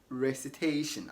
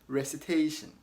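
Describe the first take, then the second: The two takes are said the same way.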